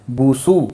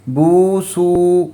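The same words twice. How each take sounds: First: بو سو with short vowels, cut off quickly; short clipped vowels. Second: بو سو with the پیش vowels stretched long and slow; wrong drawn-out vowels. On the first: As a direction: stop the sound short on بو and سو. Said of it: "آواز کو روکنا ہے". (بو سو کو چھوٹی آواز سے روک کر صحیح) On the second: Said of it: "ایسے نہیں پڑھنا". (بو سو کو غلط طریقے سے لمبا کھینچ کر) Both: Shown as a demonstration.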